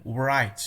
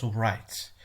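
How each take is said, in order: First: "right" starting straight on R, the W silent. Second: "right" with a W pronounced before the R; W wrongly sounded. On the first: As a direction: say "right" with no W sound before the R. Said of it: "The W or the W". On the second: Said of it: "not right". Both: Shown as a demonstration.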